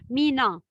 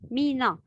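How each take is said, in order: The two takes are said the same way.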